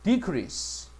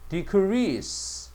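First: The stress is on the first syllable. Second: The stress is on the second syllable. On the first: It is the noun, meaning a reduction. "decrease 하면 명사가 돼" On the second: It is the verb, meaning to reduce. "이거는 감소 줄이다 동사고"

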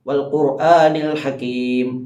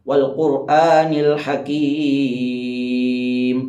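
First: The final vowel is held for a short time. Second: The final vowel is held for a long time. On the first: "അവിടെ നമുക്ക് ഒരലിഫിൻ്റെ കഥ നീട്ടാം" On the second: "മൂന്നലിഫിൻ്റെ കഥ നീട്ടാം"

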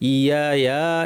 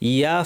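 First: The vowel is stretched out long. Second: The vowel is kept short. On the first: The speaker calls it wrong. "অনেকে টেনে ফেলেন ভুলে, ইয়া ইয়া এভাবে বলে ফেলেন" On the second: The speaker calls it right. "না টেনে ইয়া ফা"

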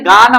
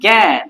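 First: The vowel is an open 'ah' sound. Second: The vowel is a front 'ae' sound. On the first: The speaker calls it wrong. "এখানে গান আমরা বলি না" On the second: The speaker calls it right. "আমরা কি বলি? জ্ঞান"

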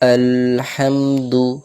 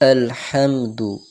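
First: The syllables al and ham are held long. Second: The syllables are said briefly without holding. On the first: The speaker calls it wrong. "এই ধরে রাখা ভুল" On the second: The speaker calls it right. "বিনা ধরে নর্মাল পড়তে হবে"

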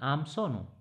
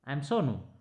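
First: 'I am' is contracted into one syllable. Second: 'I am' is said as two full words.

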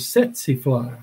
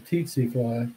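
First: The word begins without any T sound. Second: The word begins with a pronounced T sound. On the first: The speaker calls it right. "you don't pronounce the T" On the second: The speaker calls it wrong. "most Americans butcher it. They call it a tsetse fly"

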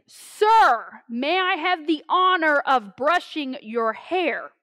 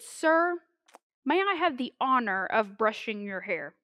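First: It is said very loudly, almost yelled. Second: It is said at a soft, normal volume.

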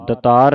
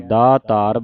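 First: The first vowel is short. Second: The first vowel is long. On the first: The speaker calls it wrong. "ਦਤਾਰ ਨਹੀਂ ਕਹਿਣਾ" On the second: The speaker calls it right. "ਦਾਤਾਰ ਬੋਲਣਾ ਹੈ"

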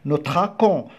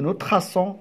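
First: The consonant before the ending is a k sound. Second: The consonant before the ending is an s sound. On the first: The speaker calls it wrong. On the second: The speaker calls it right. "On dit nous traçons"

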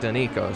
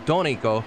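First: The name is pronounced the Spanish way. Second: The name is pronounced the Italian way. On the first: The speaker calls it wrong. "not Donico, not Spanish" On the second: The speaker calls it right. "It's Donico, so Italian"

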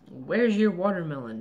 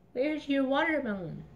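First: It is said in a normal adult voice. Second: It is said in a tiny child's voice.

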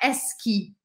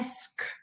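First: The word ends with an ee vowel. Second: The word ends with a bare k sound. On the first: The speaker calls it wrong. "Não é esqui" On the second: The speaker calls it right. "é esque"

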